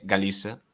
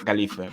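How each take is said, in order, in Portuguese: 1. O z é pronunciado como s. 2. O z é pronunciado como th. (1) "a pronuncia de moita xente na Galiza é" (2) "co o ce zeta español"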